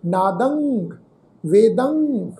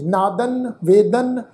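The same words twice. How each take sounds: First: ਨਾਦੰਗ, ਵੇਦੰਗ closing on a nasal ng; final syllable of ਨਾਦੰਗ, ਵੇਦੰਗ ringing into ng, no plain n; nasal ending. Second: NADAN, VEDAN ending on a plain n; ਨਾਦਨ, ਵੇਦਨ without any nasal ng; plain final n. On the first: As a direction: let ਨਾਦੰਗ and ਵੇਦੰਗ hum out on ng. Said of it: "ਦੱਦੇ ਅੱਖਰ ਦੀ ਨਾਸਕੀ tone". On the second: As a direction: say ਨਾਦਨ, ਵੇਦਨ with a clean dental n at the end. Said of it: "ਇਹ ਬਹੁਤ ਗਲਤ ਪ੍ਰੋਨਾਂਸਿੰਗ ਆ". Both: Shown as a demonstration.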